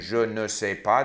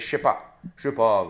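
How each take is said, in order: First: Every word is said in full, including ne. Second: The ne is dropped and the words run together. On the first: "Instead of saying je ne sais pas" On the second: "they say je sais pas"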